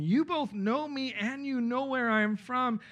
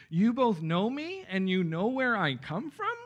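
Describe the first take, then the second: First: Raised, slow declaration; measured public declaration, pitched up; crying out, as statement. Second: Slow question rising high on "from"; incredulous question, higher pitch, rising end. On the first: A narrator's reading. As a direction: proclaim it slowly in a higher voice as a statement. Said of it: "Then Jesus cried out as he taught". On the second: Shown as a demonstration. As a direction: turn it into a challenge, lifting "come from" upward. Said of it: "translate this as a question".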